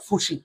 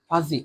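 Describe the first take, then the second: First: The middle consonant is an s sound. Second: The middle consonant is a z sound. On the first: The speaker calls it wrong. "Not ফুসি" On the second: The speaker calls it right. "এটার উচ্চারণ হবে ভাইয়া ফাজি"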